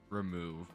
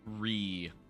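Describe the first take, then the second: First: The first syllable is short and unstressed. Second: The first syllable is full and clearly stressed. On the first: Take something away. The speaker calls it wrong. "Not remove" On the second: Move something again. The speaker calls it right. "but re-move"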